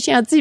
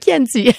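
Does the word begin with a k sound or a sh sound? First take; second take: sh sound; k sound. First: The word begins with a sh sound. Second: The word begins with a k sound. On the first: The speaker calls it wrong. "pas un Chianti" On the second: The speaker calls it right. "c'est un Chianti"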